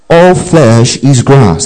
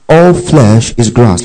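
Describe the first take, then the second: First: Slow, measured group recitation; slow call to recite in unison; recited together. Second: Said in the usual way. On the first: Shown as a demonstration. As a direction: lead the room in saying it slowly. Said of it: "Let's say that together". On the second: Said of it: "Underline that, okay?".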